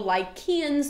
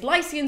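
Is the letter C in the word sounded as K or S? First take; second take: K; S. First: The C is sounded as a K. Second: The C is sounded as an S. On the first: "the K is like a hard Greek one" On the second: "pronounce that C as a, an English C"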